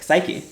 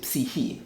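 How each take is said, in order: First: It is said the way the spelling suggests. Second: It is said with a modern Greek pronunciation. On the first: The speaker calls it wrong. "it looks like psyche" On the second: The speaker calls it right. "it's actually psyche. Is actually how you pronounce it in, in modern Greek"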